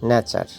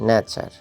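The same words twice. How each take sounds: The two takes are said the same way.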